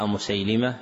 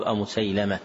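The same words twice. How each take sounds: First: أمسيلمة ending "-lima"; kasra on lam. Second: أمسيلمة ending "-lama"; fatha on lam. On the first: Teacher repeating the misprint, أمسيلمة with kasra on the lam. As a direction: put a short "i" after the lam in أمسيلمة. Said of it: "بكسر اللام". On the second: Teacher giving the correction, أمسيلمة with fatha on the lam. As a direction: put a short "a" after the lam in أمسيلمة. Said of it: "والصواب". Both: Shown as a demonstration.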